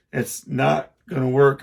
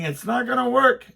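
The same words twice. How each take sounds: First: Said in the usual way. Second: It's not gonna work yelled much higher; shouted warning to son over saw. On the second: Retold or imitated.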